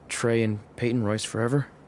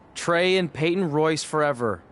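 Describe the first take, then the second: First: It is said quietly. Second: It is said loudly.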